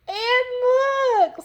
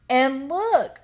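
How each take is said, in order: First: It is said in a small, squealing voice. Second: It is said in a medium-sized voice.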